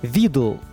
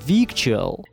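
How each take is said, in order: First: It is said the American dictionary way. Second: It is said the way it is spelled. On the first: "так его читают американцы с точки зрения их же словарей" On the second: "огромное количество носителей произносит странное слово как"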